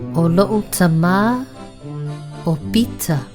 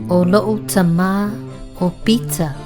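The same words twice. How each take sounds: First: It is said slowly. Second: It is said at normal speed.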